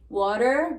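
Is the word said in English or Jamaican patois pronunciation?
English. The ending is pronounced as an r-sound. "water becomes"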